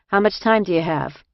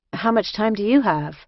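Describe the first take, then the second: First: Put-on Jersey-accented casual question. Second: Lightly voiced newcomer, higher pitch; a hint of tentative return question; newcomer asking back. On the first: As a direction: ask matter-of-factly like a Jersey woman. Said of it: "she said in a Jersey accent". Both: A narrator's reading.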